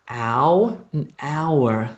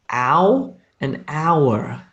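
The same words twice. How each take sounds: The two takes are said the same way.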